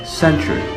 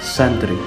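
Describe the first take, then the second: First: The middle consonant sounds like 'ch'. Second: The middle consonant sounds like 't'. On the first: The speaker calls it right. "supposed to be pronounced with the consonant ch" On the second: The speaker calls it wrong. "instead of stressing t"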